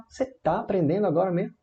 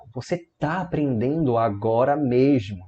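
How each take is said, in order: First: "Você tá aprendendo agora mesmo" as a quick, high question; interrogative intonation. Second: Said in the usual way. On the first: Shown as a demonstration. Teacher translating for students, "Você tá aprendendo agora mesmo" in rising question tune. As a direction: rise at "mesmo", fast and querying. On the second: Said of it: "é uma frase afirmativa".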